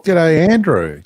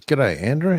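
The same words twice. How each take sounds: First: Louder and higher call of G'day, Andrew; loud greeting. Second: Said in the usual way. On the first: Real, not acted. Host greets Andrew arriving in the live chat, calling out loud. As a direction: hail Andrew cheerfully across the room.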